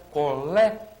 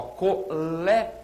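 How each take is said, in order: First: Colégio with the final io run together fast; quick diphthong ending. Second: Colégio said slowly, each final syllable apart; slow separated ending. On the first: Teacher shows the fast ending of Colégio. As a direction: say Colégio with a rapid gliding ending. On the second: Teacher contrasts the ending of colégio, slow. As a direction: stretch colégio out to show its ending. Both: Shown as a demonstration. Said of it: "Finalzinho você fala rápido".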